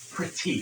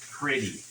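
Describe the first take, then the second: First: The middle consonant is a crisp T. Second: The middle consonant is a soft D. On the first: "if you're not saying pretty" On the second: "you could almost spell it P R I T D Y"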